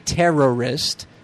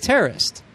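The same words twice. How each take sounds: First: The word is said following its spelling. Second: The word is said with a reduced vowel. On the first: The speaker calls it wrong. "even though it's spelled this way, we don't say terrorist" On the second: The speaker calls it right. "we say terrorist"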